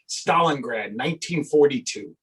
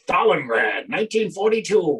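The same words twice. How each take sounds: First: It is said in his normal voice. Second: It is said in a newsreel announcer voice.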